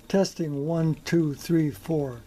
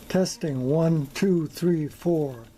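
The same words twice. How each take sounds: The two takes are said the same way.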